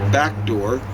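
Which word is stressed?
back. The stress falls on the word back. The speaker calls it wrong. "Don't go around doing back door"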